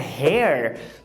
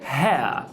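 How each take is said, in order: First: It ends with a clearly pronounced r sound. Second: It ends in a vowel glide with no r. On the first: "no americano" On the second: "no britânico, no R P"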